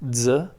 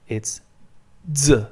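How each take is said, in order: First: The z sound is short and single. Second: The z sound is held long and doubled. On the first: "instead of Z" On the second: "the Z is repeated, then the sound is also repeated"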